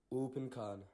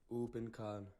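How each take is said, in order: Both takes have the same delivery.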